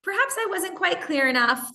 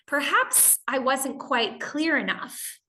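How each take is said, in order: First: Higher, sing-song fake politeness; hammed-up sweetness hiding annoyance; sugary polite. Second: Slow, overly patient polite phrasing; gently imply they misread, sweetly; a mild hint of passive aggression under politeness; fake polite. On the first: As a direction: sweeten it to mask the irritation. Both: Shown as a demonstration. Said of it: "Another more indirect way would go".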